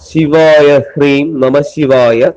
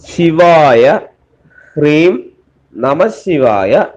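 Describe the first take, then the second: First: The words are recited quickly. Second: The words are recited slowly. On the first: "நான் speedo சொல்றேன்னா சிலப்போ புரியாம இருக்கலாம்" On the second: "ஒரு தடவை கூட மெதுவா சொல்லித்தரேன்"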